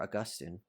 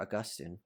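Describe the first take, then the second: First: The name is said in a refined, posher pronunciation. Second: The name is said in a refined, posher pronunciation.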